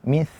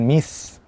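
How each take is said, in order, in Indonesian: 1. Bunyinya th, dengan ujung lidah di gigi. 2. Bunyinya s biasa. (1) "Yang benar adalah mis" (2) "bukan mis"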